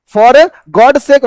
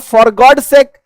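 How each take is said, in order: First: Each word drawn out, very slow; very slow demo. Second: Said in the usual way. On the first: Shown as a demonstration. Teacher dictating the phrase to students, very slow. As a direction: say it slowly for the class to copy. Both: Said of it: "का मतलब for God's sake".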